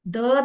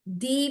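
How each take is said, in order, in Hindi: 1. यह शब्द छोटे 'uh' स्वर पर खत्म होता है। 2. यह शब्द लंबे 'ee' स्वर पर खत्म होता है। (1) "द जो है उसको द भी बोला जाता है" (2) "दी भी बोला जाता है"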